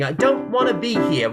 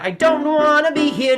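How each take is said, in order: First: It is said in a plain, neutral tone. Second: It is said in an angry tone.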